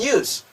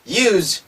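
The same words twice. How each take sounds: First: The word ends with a hissing s sound. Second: The word ends with a buzzing z sound. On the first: The word is used as a noun. "명사로 쓸 때는 use. 해서 스 발음 난다" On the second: The word is used as a verb. "이제는 즈 소리가 나는 거예요"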